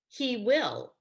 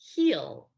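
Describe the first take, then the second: First: It is said as two separate full words. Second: It is said as one contracted syllable.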